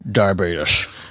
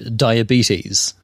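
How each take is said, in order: First: The word is said with an imitated odd pronunciation. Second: The word is said in the ordinary way.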